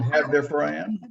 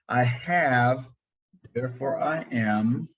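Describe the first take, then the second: First: It is said at a normal pace. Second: It is said slowly and deliberately.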